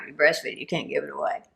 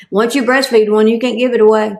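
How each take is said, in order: First: Much softer, knowing echo of the punchline; quietly nod along like a fellow dog lover; hushed knowing repeat; soft agreeing echo. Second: Punchline hit a little louder; punched joke line. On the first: Retold or imitated. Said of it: "crazy dog people like me will go". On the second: Shown as a demonstration. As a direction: land the joke with a push. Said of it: "That's my favorite joke".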